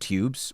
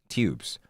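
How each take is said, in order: First: A y sound comes before the vowel. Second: No y sound comes before the vowel. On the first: The character is refined. "a character that's more refined may say like" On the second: The character is ordinary. "just regular, you know, just normal"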